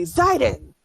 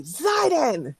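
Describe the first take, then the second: First: Loud call of a name, pitch up; shouted name. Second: Loud angry yell of a name, pitched high; angry shout. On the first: Caravan woman shouts for Zidon, loud call. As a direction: yell the name out to summon him. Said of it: "she shouts loudly". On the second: Caravan woman angrily yells Zidon's name, furious shout. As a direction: bark the name out in a temper. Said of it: "But angrily and loudly". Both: Acted.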